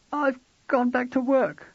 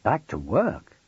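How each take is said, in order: First: High, slow hesitant confession; wife owning up gently; wife's voice. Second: Husband echoing it in a rising question; surprised repeat. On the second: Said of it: "he repeated". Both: Acted.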